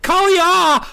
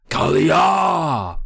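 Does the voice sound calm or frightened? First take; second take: frightened; calm. First: It is said high-pitched and frightened. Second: It is said in a plain, calm voice.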